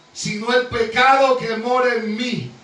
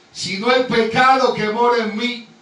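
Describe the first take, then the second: Both takes have the same delivery.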